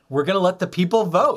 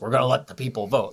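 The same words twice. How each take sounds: First: It is said chuckling, sounding delighted. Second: It is said flatly, without amusement.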